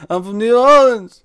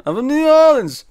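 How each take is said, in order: First: High, loud, slow insisting voice; hammed-up claim to be local; mock Wiseau accent. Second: Even higher and louder insisting voice; mock Wiseau accent, higher. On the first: Wiseau insists on his hometown. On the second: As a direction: push the claim harder, hammed up. Wiseau repeats his claim.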